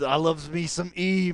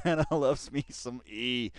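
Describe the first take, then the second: First: Slow put-on drawl, louder; mock slang. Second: Mock slang again. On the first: Fan gushing about [name], mock drawl. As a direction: ham up the slangy voice. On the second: Fan repeating his [name] line, slow mock. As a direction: repeat it lazily.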